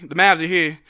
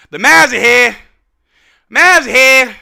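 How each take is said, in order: First: Said in the usual way. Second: Loud, proud declaration; loud proclamation. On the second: Real, not acted. Fan declaring the team has arrived, loud and proud. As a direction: belt it out to announce the team's arrival. Same words repeated as a proclamation.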